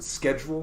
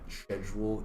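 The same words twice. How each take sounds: First: It is said with the American pronunciation. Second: It is said with a non-American pronunciation. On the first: "here in America, we pronounce it schedule" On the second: "it's very likely that schedule is in fact the correct pronunciation"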